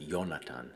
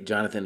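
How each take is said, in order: First: The name begins with a Y sound. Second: The name begins with a J sound. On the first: This is the older, German-style way to say it. "with a Y sound" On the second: This is the modern way to say it. "we pronounce it with a J sound now"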